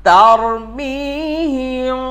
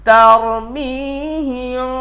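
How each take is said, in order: No difference in how they are said.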